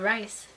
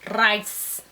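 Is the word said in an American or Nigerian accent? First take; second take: American; Nigerian. First: The word is said in an American accent. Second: The word is said in a Nigerian accent. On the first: "here they just call it rice" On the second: "speaking my r rice"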